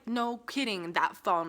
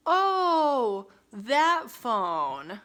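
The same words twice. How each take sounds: First: Exasperated echo, mildly sarcastic; dry, unimpressed retort; retold sarcasm. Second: Loud, drawn-out fake "oh"; hammed-up feigned innocence, high then dropping; mock realization. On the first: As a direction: throw it back as obvious. Retells her sarcastic reply. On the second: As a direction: exaggerate a sudden, phony recollection. Mocks bartender pretending to remember.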